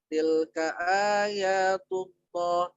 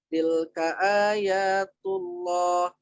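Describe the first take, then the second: Both takes have the same delivery.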